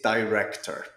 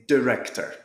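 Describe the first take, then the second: First: The first vowel is a long 'eye' sound. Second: The first vowel is a short 'ih' sound.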